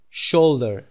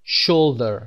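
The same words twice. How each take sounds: The two takes are said the same way.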